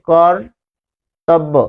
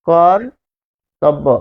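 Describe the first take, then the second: The two takes are said the same way.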